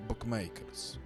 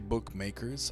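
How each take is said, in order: First: The word has a slight Venezuelan accent. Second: The word is said in a plain accent. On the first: This is how the speaker normally says it. "I say bookmakers. ... with a little Venezuelan accent" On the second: This is not how the speaker normally says it. "I don't say bookmakers"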